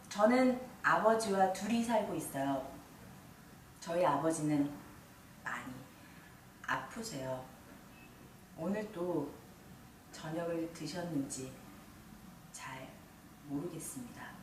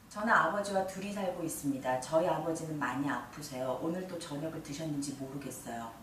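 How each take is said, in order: First: It is said slowly, with pauses. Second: It is said quickly, at a steady pace.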